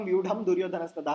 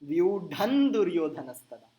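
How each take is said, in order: First: The first word ends with an m sound. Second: The first word ends with an n sound. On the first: The speaker calls it wrong. "आप एक दिन पहले तक कर रहे थे ... हर जगह म" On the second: The speaker calls it right. "अब एक जगह म एक जगह न है"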